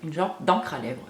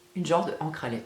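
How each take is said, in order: First: 'De' is dropped into 'encre' as one sound. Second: 'De' and 'encre' are said as separate words. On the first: The speaker calls it right. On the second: The speaker calls it wrong.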